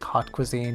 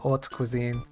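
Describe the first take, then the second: First: The opening h sound is pronounced. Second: The opening h sound is silent. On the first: It sounds like the English word hot. The speaker calls it wrong. "he wouldn't have pronounced it like" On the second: It is the French way of saying it. The speaker calls it right. "He would have said haute cuisine. In French, you don't pronounce the H's"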